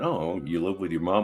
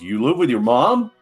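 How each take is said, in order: First: It is said in a casual, accepting way. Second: It is said in a shocked, incredulous way.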